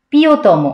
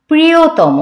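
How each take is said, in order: First: প্রিয়তম said as "পিয়তম" with the r dropped; wrong pronunciation. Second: প্রিয়তম with the r-phala sounded in full, "প্রি"; correct pronunciation. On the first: Teacher showing students the wrong way to say প্রিয়তম. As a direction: drop the r sound in প্রিয়তম. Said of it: "এই প্রিয়তম কিন্তু বলা যাবে না". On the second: Teacher showing the class the correct প্রিয়তম. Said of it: "আমি কিন্তু প্রিয়তম বলেছি". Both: Shown as a demonstration.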